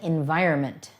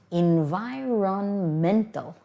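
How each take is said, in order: First: The middle 'on' syllable is dropped. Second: The middle 'on' syllable is clearly pronounced. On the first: This is how most people say it casually. "many people don't pronounce the R O N in the middle" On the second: This is the full form of the word. "So the real word is environmental"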